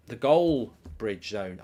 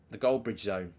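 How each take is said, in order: First: Slow, with "Goal" and "Bridge" as separate words; split into Goal Bridge. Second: Said in the usual way. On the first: Shown as a demonstration. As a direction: spell out the Goal Bridge pun slowly, stressing Goal. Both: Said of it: "I like that".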